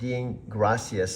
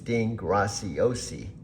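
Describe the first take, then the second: First: The surname ends in an 'as' sound. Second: The surname ends in an 'osi' sound. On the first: The speaker calls it wrong. "It's not Dean Gracias like muchas gracias" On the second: The speaker calls it right. "It's Dean Graciosi, Italian"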